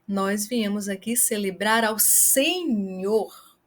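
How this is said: The word Senhor is stressed. It highlights who is celebrated. "Se você quer chamar a atenção para a pessoa a qual nós viemos celebrar"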